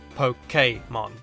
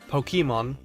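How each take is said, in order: First: The middle E is said as 'ay'. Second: The middle E is not said as 'ay'. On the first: The speaker calls it right. "The accented E... makes more of an A sound" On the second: The speaker calls it wrong. "much more natural sounding than the correct pronunciation"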